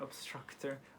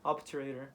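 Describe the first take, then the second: First: It is said with an added 'str' cluster. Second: It is said with no 'str' cluster. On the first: The speaker calls it wrong. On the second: The speaker calls it right.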